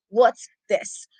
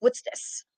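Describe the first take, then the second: First: Low disgusted grumble. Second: Breathless whisper; mock disgusted whisper. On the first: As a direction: sneer it low. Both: Shown as a demonstration. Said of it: "the Duke look".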